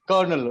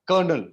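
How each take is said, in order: Both takes have the same delivery.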